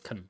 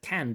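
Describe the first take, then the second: First: The vowel is reduced to a weak schwa. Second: The vowel is full and clear. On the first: "this weak form of can" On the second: "the full form, can"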